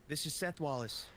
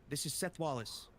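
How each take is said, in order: The two takes are said the same way.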